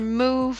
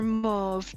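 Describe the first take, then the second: First: The vowel sounds like 'ooh'. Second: The vowel sounds like 'ah'.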